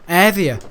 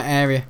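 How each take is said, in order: First: "Area" said as "AIR-vee-a", louder; mispronounced area. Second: Said in the usual way. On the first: Real, not acted. Echoing his own slip about the police patrol, mispronouncing "Area". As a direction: exclaim "Area" with a v for the r.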